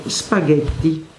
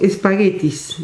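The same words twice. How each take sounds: First: "spaghetti" said the Italian way, starting straight on the s with no e before it; "spaghetti" as an Italian would say it, no added vowel; Italian pronunciation. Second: "espaguetis" with an added e before the s and a final s, the Spanish way; "espaguetis" fully castellanized, opening vowel and plural s; Spanish pronunciation. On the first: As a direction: give "spaghetti" its original Italian sounds, s-pa-ghet-ti. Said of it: "Así se escribe en italiano".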